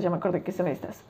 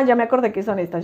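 First: Much softer, fast repeat under the breath; a quick hushed echo of the line just said; muttered to self. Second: Said in the usual way. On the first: Real, not acted. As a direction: say it again quietly to yourself.

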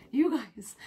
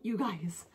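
First: "you guys" whispered, no voice. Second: Said in the usual way. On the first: Real, not acted. Vlogger leaning in to viewers, whispering "you guys". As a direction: breathe "you guys" as a secret.

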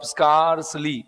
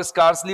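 First: स्कार्सली slowly drawn out as स्कार-सली; syllable demonstration. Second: Said in the usual way. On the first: Shown as a demonstration. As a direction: stretch both syllables of स्कार्सली for learners. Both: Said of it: "इसको बोल के देखो".

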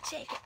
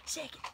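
The two takes are said the same way.

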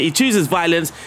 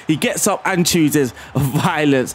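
First: Said in the usual way. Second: Slow, savouring it with a laugh; slow gleeful repeat with a laugh. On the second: Real, not acted. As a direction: drag it out and chuckle on violence. Repeats the goal line, savouring it.

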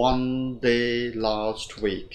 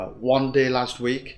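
First: Slow, four evenly stretched words; slow four-beat reading; slightly drawn out. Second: Quicker, undrawn reading; the hurried version not to copy; too quick. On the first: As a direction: stretch every word a little. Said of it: "Hơi kéo dài một tí". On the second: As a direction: say it briskly without stretching the words. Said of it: "chúng ta không đọc là". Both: Shown as a demonstration.

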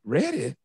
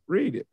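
First: "Reddit" with "red" as first syllable; puzzled misreading, "Reddit" starting like bed; short-e misreading. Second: "read it" said as "reed it"; acted text message, "read" rhyming with need; long-e reading. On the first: Acted. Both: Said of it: "somebody didn't understand a homophone".

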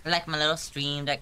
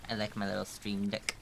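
First: "I like my little stream deck" said higher and louder; more excited repeat. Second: Said in the usual way. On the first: Shown as a demonstration. Streamer gushes over her stream deck, louder. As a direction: repeat it with real gusto.

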